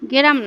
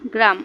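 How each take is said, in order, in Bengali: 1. এটি একটি গ্রামীণ উপভাষার রূপে বলা হয়েছে। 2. এটি প্রমিত রূপে বলা হয়েছে।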